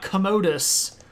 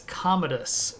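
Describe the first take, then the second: First: The stress is on a later syllable. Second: The stress is on the first syllable. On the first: The speaker calls it wrong. "It's not Commodus" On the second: The speaker calls it right. "The accent's on the first syllable"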